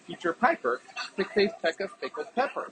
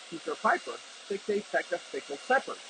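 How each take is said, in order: First: Speech is heard over simulated background noise. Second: Speech is heard over a running hairdryer. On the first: "this is what they sound like in a simulated noisy environment" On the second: "in a noisy environment with the hairdryer on"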